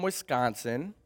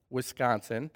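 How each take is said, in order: First: Said in the usual way. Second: A soft, low Wisconsin-accented "Wisconsin." with a rising end; lightly Wisconsin-accented "Wisconsin.". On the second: Shown as a demonstration. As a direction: say "Wisconsin." the way a Wisconsin local does, drawn out and lower. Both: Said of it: "you'll hear it a little bit in my accent".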